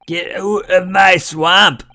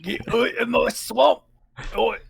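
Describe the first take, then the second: First: High slow hammed-up ogre shout; Shrek impression. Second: Higher hammed-up ogre echo; Shrek impression. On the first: Host spoofing Shrek, high and slow. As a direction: drag out the swamp line like Shrek. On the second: Cohost echoing the Shrek line, high and hammed.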